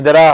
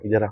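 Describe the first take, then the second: First: The phrase is spoken loudly and forcefully. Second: The phrase is spoken softly and quietly. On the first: The speaker calls it right. "तो जोर से बोलना चाहिए" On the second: The speaker calls it wrong. "आप धीरे से बोल रहे हो"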